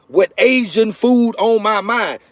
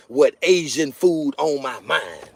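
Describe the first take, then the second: First: "Asian food on my mind" drawn out slowly, pitched up; emphatic repeat. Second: Said in the usual way. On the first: Real, not acted.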